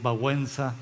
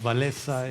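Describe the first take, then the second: First: The name is given its Polish pronunciation. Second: The name is given a Spanish pronunciation. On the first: This is how a Polish speaker says it. "cuando hablas de solidaridad y dices Babuenza" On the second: This is how Spanish speakers say it. "nosotros decimos Valesa"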